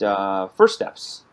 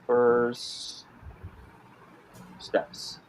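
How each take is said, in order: First: Said in the usual way. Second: Slow word-by-word typing dictation. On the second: Shown as a demonstration. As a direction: say each word as you type it. Repeats name while typing it.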